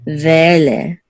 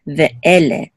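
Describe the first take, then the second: First: Ve'ele run into two syllables, VE-le; slurred together. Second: Ve'ele with a clean stop after Ve; separated sounds. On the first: Teacher showing what we don't do, Ve'ele slurred. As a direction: slide through Ve'ele with no stop after ve. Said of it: "We don't slur it together". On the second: Teacher repeating it here also, Ve'ele with a pause. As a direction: say VE, stop, then ele in Ve'ele. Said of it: "and here also". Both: Shown as a demonstration.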